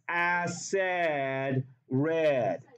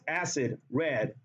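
First: Acid is said so it rhymes with red. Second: Acid is said so it does not rhyme with red. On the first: The speaker calls it right. "That's why you have to say it like this" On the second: The speaker calls it wrong. "if you say it like this, acid, red, it doesn't rhyme"

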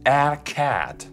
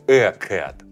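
First: The vowel in cat is an open English a. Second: The vowel in cat is a Russian-like e. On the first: The speaker calls it right. "A вместо нашего привычного «э». То есть мы скажем «a cat»" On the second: The speaker calls it wrong. "не «a cat»"

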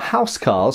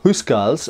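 First: It is said with the usual modern English pronunciation. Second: It is said closer to the original old pronunciation.

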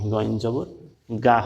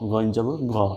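First: The last syllable ends in a long 'aa' vowel. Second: The last syllable ends in a short vowel. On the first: The speaker calls it wrong. "এখানে গয়ন জবর গা বলা যাবে না" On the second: The speaker calls it right. "গয়ন জবর গ বলতে হবে"

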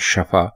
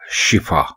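First: The first vowel is a short 'a'. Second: The first vowel is a short 'i'. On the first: The speaker calls it wrong. "जबर से बोलते हैं शफा" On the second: The speaker calls it right. "ये दुरुस्त लफ्ज है शिफा, यानी शीन के नीचे जेर है"

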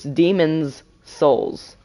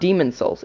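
First: Demon is said with a final s sound. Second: Demon is said without a final s sound. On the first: The speaker calls it right. "like with an apostrophe in an S" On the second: The speaker calls it wrong. "It's not Demon's Souls"

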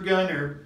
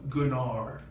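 First: The name is said in a plain English accent. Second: The name is said in a French accent.

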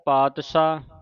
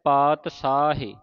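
First: It uses a 'sh' sound with no final vowel. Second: It uses a plain 's' sound and ends in 'e'. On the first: The speaker calls it wrong. "ਕਈ ਸੰਗਤਾਂ ਤਿੰਨ ਤਰ੍ਹਾਂ ਦਾ ਉਚਾਰਨ ਕਰ ਜਾਂਦੀਆਂ" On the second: The speaker calls it right. "ਸ਼ੁੱਧ ਉਚਾਰਨ ... ਸਾਹੇ ਇਸ ਤਰ੍ਹਾਂ ਉਚਾਰਨ ਹੋਵੇਗਾ"

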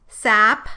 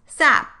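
First: The final p is audibly released. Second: The final p is held without release.

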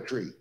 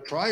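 First: The word rhymes with 'see'. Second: The word rhymes with 'eye'. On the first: "or a tree?" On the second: "Is it a try"

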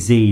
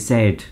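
First: The letter is said as 'zee'. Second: The letter is said as 'zed'. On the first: This is the American way of saying it. "You say Z, don't you, in America?" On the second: This is the British way of saying it. "we say Z"

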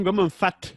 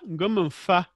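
First: The final word ends with a t sound. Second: The final word ends without a t sound. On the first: The speaker calls it wrong. "Et non" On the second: The speaker calls it right. "on dit"

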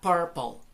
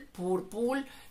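First: The first vowel is an 'er' sound. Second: The first vowel is not an 'er' sound. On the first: The speaker calls it right. "La U y la R aquí suenan como si fueran, más como si fueran una E y una R juntas" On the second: The speaker calls it wrong. "no es correcto"

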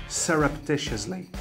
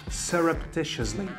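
The two takes are said the same way.

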